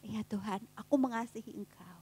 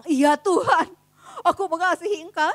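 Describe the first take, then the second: First: Lower tone. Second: Firm and loud, sure of himself; loud bold answer. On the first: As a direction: lower and much softer, losing confidence. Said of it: "Mulai, mulai nadanya rada, rada rendah ya". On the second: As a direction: proclaim it boldly like a confident disciple. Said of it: "Petrus dengan lantang bilang". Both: Acted.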